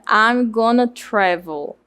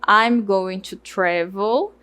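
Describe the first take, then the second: First: Going to is reduced to gonna. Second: Every word is pronounced fully.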